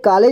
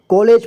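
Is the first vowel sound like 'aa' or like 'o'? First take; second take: aa; o. First: The first vowel sounds like a plain 'aa'. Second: The first vowel sounds like an 'o'. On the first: The speaker calls it wrong. "इसे कॉलेज नहीं पढ़ेंगे" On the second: The speaker calls it right. "बल्कि कॉलेज पढ़ेंगे ठीक है, क्योंकि इस तरह का मात्रा जो लगा होता है उसे ओ की जैसे आवाज आता है"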